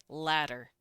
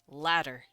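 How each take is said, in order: Both takes have the same delivery.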